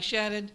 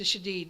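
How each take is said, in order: First: The name is said with an American pronunciation. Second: The name is said with a Lebanese-style pronunciation. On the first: This is how some of his local family say it. "his family here, some go by Shadid" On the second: This reflects his Lebanese descent. "He chose to change his pronunciation to Shadid because of his Lebanese descent"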